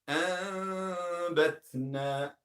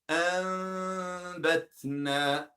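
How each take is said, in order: The two takes are said the same way.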